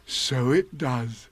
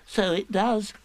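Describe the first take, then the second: First: Pooh's voice. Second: High, small piglet voice; Piglet's voice. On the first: Pooh watching the balloon go in the pot. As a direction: ponder it slowly. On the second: Piglet agreeing as the balloon comes out. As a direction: squeak it out brightly. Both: A narrator's reading.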